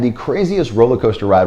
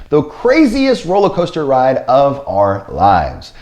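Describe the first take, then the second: First: Said in the usual way. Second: Slow, drawn-out emphasis on "craziest"; stress on CRAZIEST. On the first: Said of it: "Once again, I emphasize the word crazy". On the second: Real, not acted. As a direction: lean hard on "craziest", stretching it out slowly. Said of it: "I emphasize the word crazy".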